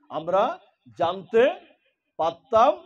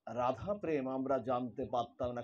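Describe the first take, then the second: First: আমরা, জানতে, পারতাম each said alone with pauses, rising and louder. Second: Radha প্রেম আমরা জানতে পারতাম না said lower and much softer; soft restatement. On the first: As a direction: space out আমরা জানতে পারতাম one word at a time, building up. Word by word for emphasis. (আমরা জানতে পারতাম প্রতিটি শব্দ আলাদা করে, জোর বাড়িয়ে) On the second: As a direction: drop back to a quiet, settled close. Restated softly after emphasis. (নরম নিচু গলায় শান্ত পুনরাবৃত্তি) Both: Shown as a demonstration.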